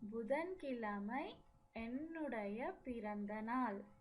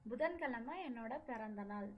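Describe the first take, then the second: First: The word for 'my' is said in full. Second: The word for 'my' is said shortened. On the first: This is the formal written style. "written language" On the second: This is the everyday spoken style. "While speaking, This என்னுடைய changes it as என்னோட"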